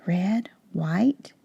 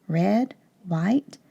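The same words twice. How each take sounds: First: Soft whispered count of the stripes. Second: Said in the usual way. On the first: Shown as a demonstration. Teacher whispering the pattern to the class. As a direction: whisper the colours like a secret. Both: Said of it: "counting stripe pattern with class".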